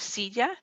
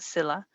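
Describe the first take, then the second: First: The word has a native Spanish pronunciation. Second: The word has an English-style reading. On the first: The speaker calls it right. "You have silla" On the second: The speaker calls it wrong. "the Jaws is not pronouncing it correctly. It pronounces it Scylla"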